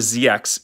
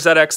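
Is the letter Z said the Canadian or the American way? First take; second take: American; Canadian. First: Z is said the American way, as zee. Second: Z is said the Canadian way, as zed.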